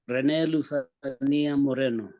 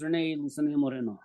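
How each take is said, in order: First: The name is said with a Spanish accent. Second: The name is said with an English accent. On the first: "in a sort of Spanish accent? ... the normal way I say it" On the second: "Just regular"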